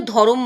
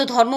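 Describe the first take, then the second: First: ধরম with a vowel between র and ম; two-syllable dho-rom for ধরম; eased pronunciation. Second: Said in the usual way. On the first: Shown as a demonstration. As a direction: split the cluster, saying ধরম as dho-rom. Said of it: "উচ্চারণের সুবিধার জন্য ধরম বলে". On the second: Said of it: "আমরা সাধারণত ধর্ম বলি".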